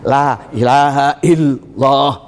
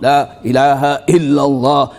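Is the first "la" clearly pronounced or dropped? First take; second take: dropped; dropped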